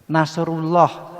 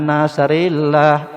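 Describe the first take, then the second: First: The vowel after 'nasr' is a 'u'. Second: The vowel after 'nasr' is an 'i'. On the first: The speaker calls it right. "terus dibenarkan nasrullah" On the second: The speaker calls it wrong. "dibaca nasrillah"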